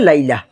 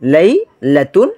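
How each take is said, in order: First: The word ends with a soft h sound. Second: The word ends with a full -tun ending. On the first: The word is read with a stop on it. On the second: The word is read without stopping on it.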